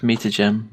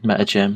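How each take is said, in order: First: "Meter gem" with a long northern "mee-tuh". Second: "meta gem" said with a short "meh-tuh"; corrected meta gem. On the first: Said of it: "Leave my northern accent alone". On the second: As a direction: fix it to "meta gem", "meh" not "mee". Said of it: "meta, meter gem". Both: Real, not acted.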